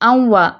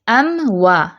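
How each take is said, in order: First: The m is rushed quickly into the w. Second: The m is held distinctly before the w. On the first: The speaker calls it wrong. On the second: The speaker calls it right.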